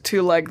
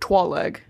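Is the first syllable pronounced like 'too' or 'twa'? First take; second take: too; twa. First: The first syllable sounds like 'too'. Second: The first syllable sounds like 'twa'. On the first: The speaker calls it right. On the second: The speaker calls it wrong.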